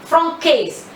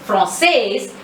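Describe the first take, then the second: First: Francaise said fron-kez with a K sound; francaise with hard K. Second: Française said fron-sez with an S sound; slow française, the C as S; française with soft S. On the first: Teacher showing francaise without cedille, hard K. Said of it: "If you don't use the cedille there". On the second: Teacher showing française with the cedille, slowly. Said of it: "When you use the cedille there". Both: Shown as a demonstration.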